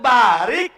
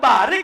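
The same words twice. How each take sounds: First: The first vowel is held long. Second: The first vowel is kept short. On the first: It asks for a blessing. "Kalau barik berkahi" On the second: It asks to be made to kneel. "kalau barik rundukan"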